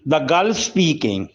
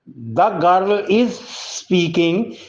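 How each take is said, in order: First: The word 'is' is reduced and merged in. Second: The word 'is' is said as a full syllable. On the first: "इज हम बोल रहे हैं ... native speaker भी ऐसे ही English बोलती हैं" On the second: "the girl इज speaking की बजाय"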